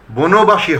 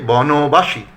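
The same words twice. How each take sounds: First: বনবাসী said as "bonobashi"; closed "bo" opening বনবাসী; mistaken close o. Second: বনবাসী said slowly as "bɔnobashi"; drawn-out open "bɔ" opening বনবাসী; correct open vowel. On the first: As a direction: say বনবাসী with a rounded first o, "bo-no-ba-shi". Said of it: "হবে না". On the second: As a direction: say বনবাসী slowly, "baw-no-ba-shi". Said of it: "হবে". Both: Shown as a demonstration.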